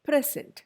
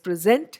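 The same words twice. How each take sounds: First: The stress is on the first syllable. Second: The stress is on the second syllable. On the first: It is a noun, a gift. "in a noun it is the first syllable" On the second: It is a verb, to perform or introduce. "സെന്റിനാണ് കൂടുതൽ stress"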